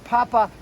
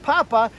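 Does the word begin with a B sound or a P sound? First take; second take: P sound; P sound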